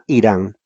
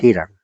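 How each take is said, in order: First: The name starts directly with a vowel. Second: The name starts with a J-like breathy sound. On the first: This is the Spanish way of saying it. "en español la H es muda" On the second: This is the English way of saying it. "en inglés es Hiram"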